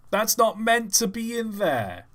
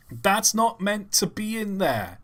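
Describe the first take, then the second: First: Higher mock protest; hammed-up indignant whine; mock indignation. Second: Higher, slower mock protest; hammed-up indignant whine; mock indignation. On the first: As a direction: repeat the huff. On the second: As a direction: huff it like a fussy critic. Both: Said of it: "repeated line".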